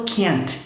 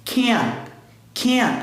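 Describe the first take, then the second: First: "can't" with a clearly released final T; wrong "can't" with a sounded T at the end. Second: "Can't" with the final T swallowed, unreleased; held T. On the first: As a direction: let the T of "can't" pop audibly. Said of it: "Eu não falo can't". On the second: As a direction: cut "can't" short, tongue stays on the palate. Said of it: "Eu seguro o T". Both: Shown as a demonstration.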